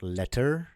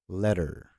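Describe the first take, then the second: First: The middle consonant is a crisp hard T. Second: The middle consonant is a soft D. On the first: The speaker calls it wrong. "It's not letter" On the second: The speaker calls it right. "double T becomes a soft D"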